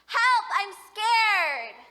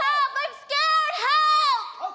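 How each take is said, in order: First: It is said without screaming. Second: It is screamed loudly for help.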